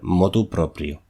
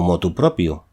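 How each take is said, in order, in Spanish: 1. La segunda palabra tiene r después de p. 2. La segunda palabra no tiene r después de p. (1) "en los tres casos, es eh, motu proprio" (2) "Pero podemos encontrar por ahí"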